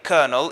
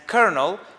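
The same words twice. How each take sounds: First: It is said in a British way. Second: It is said in an American way. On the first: "is usually British" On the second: "is usually American"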